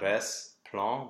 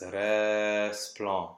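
First: The S ends the first syllable. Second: The S starts the second syllable. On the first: The speaker calls it wrong. "It's not res plan" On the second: The speaker calls it right. "pretend that that S belongs to the PL"

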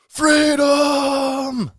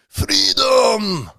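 First: It is said in his normal accent. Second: It is said in a Scottish accent.

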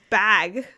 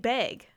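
First: The vowel sounds like the one in 'bag'. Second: The vowel sounds like the one in 'beg'. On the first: The speaker calls it right. "it's supposed to be said like bag" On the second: The speaker calls it wrong. "I'm saying beg"

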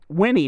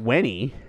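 First: The first syllable sounds like 'win'. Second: The first syllable sounds like 'when'. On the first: The speaker calls it right. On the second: The speaker calls it wrong. "not Winnie. ... W-H-E-N"

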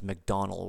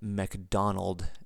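First: The name ends without a D sound. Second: The name ends with a D sound.

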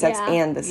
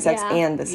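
First: The word 'and' is pronounced fully and clearly. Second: The same.

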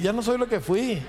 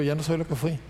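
First: It is said strongly, with conviction. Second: It is said weakly, without much conviction.

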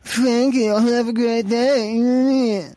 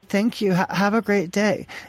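First: It is said in a mocking, sneering tone. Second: It is said in a plain, friendly tone.

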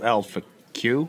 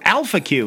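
First: The stress falls on the last syllable. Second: The stress falls on the first syllable.

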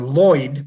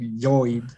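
First: The name is said with an English pronunciation. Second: The name is said with a Bolivian Spanish pronunciation. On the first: "Hence the last name Lloyd" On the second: "but in Bolivia, would say Lloyd"

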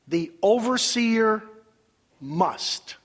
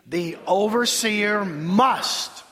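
First: The word must has no special emphasis. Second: The word must is heavily emphasized.

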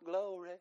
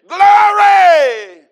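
First: The word is said quietly and weakly. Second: The word is said loudly and forcefully. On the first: The praise is timid and half-hearted. The speaker calls it wrong. "not glory" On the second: The praise is bold and unashamed. The speaker calls it right. "I'm talking about with a thunderous voice"

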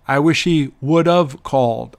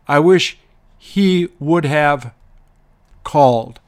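First: Have is reduced to a quick 'of' sound. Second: Have is pronounced fully, at a slower pace.

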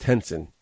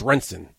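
First: The name begins with an H sound. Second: The name begins with an R sound. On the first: This is how the family wants it said. "she specifies it's pronounced Henson" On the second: This is how the spelling reads to most people. "To me, that's Renson"

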